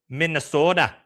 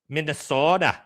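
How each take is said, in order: No difference in how they are said.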